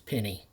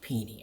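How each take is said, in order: First: The name sounds like the word 'penny'. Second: The name does not sound like 'penny'. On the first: The speaker calls it wrong. "mispronouncing it as Penny" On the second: The speaker calls it right. "that's pronounced Pini"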